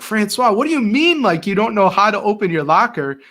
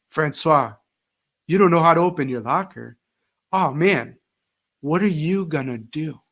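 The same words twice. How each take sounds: First: Exasperated outburst, much higher and louder; teacher losing patience with a student over his locker, frustrated; mad and frustrated. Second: Calm, lightly dramatic sympathy; teacher calmly handing the locker problem back to the student, mock-concerned. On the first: Retold or imitated. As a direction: scold the kid in frustrated disbelief. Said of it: "I would get so mad and frustrated". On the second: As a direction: hand the problem back with gentle fake dismay. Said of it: "instead of me going and solving that problem".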